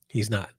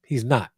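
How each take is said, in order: First: "He's not" dropped low and soft, trailing; softer echo of "He's not"; quieter repeat. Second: Said in the usual way. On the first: Shown as a demonstration. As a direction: let the repeat sink to a hush.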